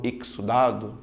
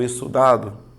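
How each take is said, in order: First: Exudado with an x sound, ik-su-dado; student unsure how to say exudado; first guess exudado. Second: Exudado with a plain s, e-su-dado; student testing another exudado; second guess exudado. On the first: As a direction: try exudado with ks in the middle. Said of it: "como é que eu pronuncio isso". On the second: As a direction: try exudado with just an s. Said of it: "aí eu te digo, exudado". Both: Shown as a demonstration.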